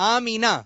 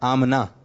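First: The middle has a long ee: Aa-mee-na. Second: The middle vowel is dropped: Aam-na. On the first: The speaker calls it right. "اس کا صحیح تلفظ ہے آمینہ" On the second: The speaker calls it wrong. "یہ آمنہ تلفظ جو ہے یہ صحیح نہیں ہے"

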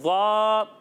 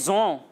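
First: The letter is sounded heavy and full, without hiss. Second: The letter is sounded as a thin, hissing z. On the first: The speaker calls it right. "اس کا درست تلفظ ہے ضا" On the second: The speaker calls it wrong. "بعض بچے سے پڑھتے ہیں زوں، یہ زوں نہیں ہے"

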